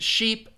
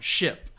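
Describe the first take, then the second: First: Sheep with a long, tense E. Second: Ship with a short, lax I. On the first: Teacher recapping sheep for students, long E vowel. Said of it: "is the long E sound". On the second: Teacher repeating ship for students, short I vowel. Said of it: "the short I sound". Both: Shown as a demonstration.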